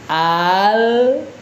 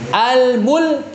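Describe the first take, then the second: First: It is said very slowly, drawn out. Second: It is said at normal speed.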